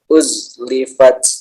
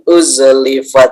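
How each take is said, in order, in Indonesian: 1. Huruf z ditahan biasa tanpa pantulan. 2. Huruf z dipantulkan dengan tambahan vokal e. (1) "uzlifat bukan" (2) "Hati-hati jangan sampai memantul karena bukan qalqalah"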